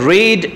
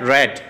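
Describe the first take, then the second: First: The vowel is long, like 'reed'. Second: The vowel is short, like 'red'. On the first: It is the present form. "শুরুর ঘরে রিড" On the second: It is the past form. "বাদর দুয়া জিন আছে হিনর ঘরে রেড"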